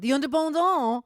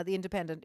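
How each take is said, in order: First: The Independent said as a mock French "ze Ondeur-bondah", louder; Frenchify The Independent for a laugh; jokey French take on The Independent. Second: Said in the usual way. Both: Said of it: "as the French would say".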